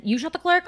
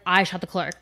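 First: Incredulous echo. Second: Said in the usual way. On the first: Retold or imitated. Retelling a movie scene to a friend, stunned incredulous echo. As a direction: pitch leaps way up on "clerk" in disbelief. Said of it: "And then". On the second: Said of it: "And the guy's like".

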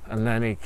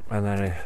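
Both takes have the same delivery.

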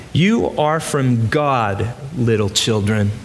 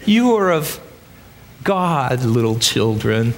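First: Lightly voiced gentle old grandpa, slow; a hint of a tender great-grandfather. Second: A hint of a gentle great-grandfather; old grandpa voice. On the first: John in his nineties gently comforting the church, slow. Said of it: "his old grandpa voice". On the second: John soothing frightened believers, lightly voiced old grandpa. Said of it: "Can you hear his old grandpa voice?".

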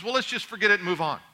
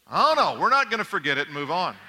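First: Quick, breezy imitation of a wife; dismissive wife. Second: Mock-indignant refusal. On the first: Wife wanting to end a spat with husband, breezily dismissive. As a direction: brush the argument aside briskly. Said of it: "She says". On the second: Husband refusing to let wife drop the fight, mock-indignant.

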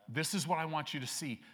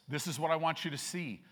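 No difference in how they are said.

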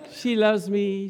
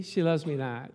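First: Lightly voiced hopeful "She loves me", pitched up; hopeful lover. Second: Doubting lover. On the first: Lovestruck guy picking petals, hopeful rise. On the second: Retold or imitated. Lovestruck guy picking petals, deflated drop. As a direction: let "She loves me not" sink down, deflated. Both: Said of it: "See, the guy's excited".

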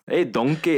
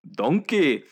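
First: Higher, louder Scottish ogre greeting; Shrek accent. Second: "donkey" with rolled Scottish vowel, higher. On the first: Acted. Host demonstrating his Shrek line to friends, Scottish accent. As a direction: call out like Shrek in a Scottish brogue. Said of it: "trying to do the Shrek accent". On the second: Shown as a demonstration. Showing friends how Shrek says "donkey", Scottish accent. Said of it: "you have to say donk".

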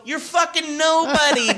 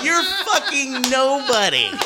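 First: High, shouted put-down; retelling his own yell at the guy; half-laughing mock shout. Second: High, slow, laughing put-down; repeating the insult while cracking up; amused mock yell; laughing retelling. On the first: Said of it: "And I go". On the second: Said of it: "I go".

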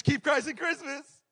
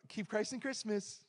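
First: Loud, high, slow sing-out of a slogan; mock preaching. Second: Slow, higher-pitched mock reverence; mock profound. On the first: Preacher mocks those who only preach the slogan, loud mock preaching. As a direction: preach it mockingly, pitched right up. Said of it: "we just wanna preach". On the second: Preacher mimics people saying the holiday slogan, mock profound. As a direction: imitate a slogan said softly as if profound. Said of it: "why are you saying it like that".

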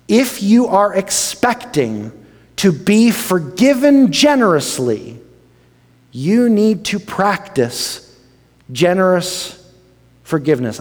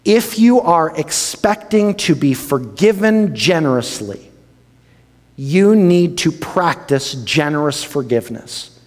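First: Each word "you need to practice generous forgiveness" slow and spaced; slow emphatic stress. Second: Said in the usual way. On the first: Shown as a demonstration. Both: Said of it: "I'm gonna say this a couple of times".

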